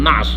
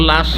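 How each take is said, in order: First: The word begins with an n sound. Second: The word begins with an l sound. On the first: This is the original Arabic form. "শুদ্ধ আরবি হচ্ছে নাশ" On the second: This is the form used in Bengali. "বাংলাতেও লাশ"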